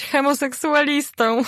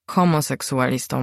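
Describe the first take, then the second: First: Mother's wrong hemoseksualistą; mispronounced word. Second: Homoseksualistą said with o, as homo-; correcting the word Homoseksualistą; correct pronunciation. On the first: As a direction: say hemoseksualistą with an e, as hemo-. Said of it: "Homoseksualistą, mamo. Homoseksualistą". (hemoseksualistą z e zamiast o) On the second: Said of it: "poprawił ją". (poprawne Homoseksualistą przez o) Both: A narrator's reading.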